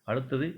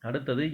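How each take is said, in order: Both takes have the same delivery.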